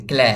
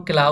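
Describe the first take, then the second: First: ক্ল্যা with lips bent, tilted ae; slanted "ae" vowel. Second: ক্লা with an aa-kar sound; straight "a" vowel. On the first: Teacher coaches lip shape for learners, ক্ল্যা with slanted ae. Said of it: "ঠোঁট দুটোকে বাঁকা করে". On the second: Teacher explains the aa-kar reading, ক্লা with straight aa. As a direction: say ক্লা with open aa. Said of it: "আকারের মতো". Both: Shown as a demonstration.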